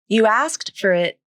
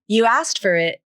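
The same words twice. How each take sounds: First: Each word is said fully and separately. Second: The words are reduced and linked together. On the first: "the full pronunciation of asked" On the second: "according to the rule of three"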